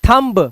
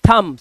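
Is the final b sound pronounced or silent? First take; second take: pronounced; silent. First: The final b sound is pronounced. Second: The final b sound is silent. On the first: The speaker calls it wrong. "It is not थंब" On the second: The speaker calls it right. "सिर्फ थम, बी silent रहेगा इसका"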